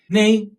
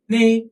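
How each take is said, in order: Both takes have the same delivery.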